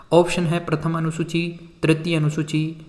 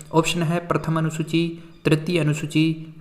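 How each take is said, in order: Both takes have the same delivery.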